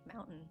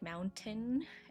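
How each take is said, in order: First: The T in the middle is dropped. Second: The T in the middle is clearly pronounced. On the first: "or do you guys just say like mountain?" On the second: "do you guys say like mountain every time"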